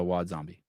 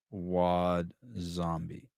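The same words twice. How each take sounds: First: Said in the usual way. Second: "Wad Zombie" stretched very slowly; slow, relishing "Wad Zombie"; drawn-out name. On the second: Shown as a demonstration.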